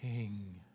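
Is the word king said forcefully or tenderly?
tenderly. The word is said softly and tenderly.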